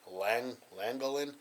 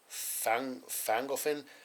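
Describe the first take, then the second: First: The name begins with a plain L sound. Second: The name begins with an F sound. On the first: "I completely butchered the name of the town. The whole time I was calling it" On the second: "it had an F sound. So then I thought it was"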